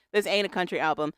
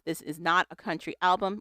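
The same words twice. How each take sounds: First: "This ain't a country album" with "ain't" said clearly; correcting to ain't. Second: Said in the usual way. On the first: Shown as a demonstration. Host corrects the quote for cohost, stressing ain't. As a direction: correct the word, landing on "ain't". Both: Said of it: "Well, it says this ain't".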